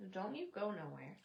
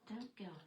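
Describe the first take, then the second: First: Said in the usual way. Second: Breathy whispered aside; whispering. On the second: Real, not acted. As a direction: whisper it like a secret.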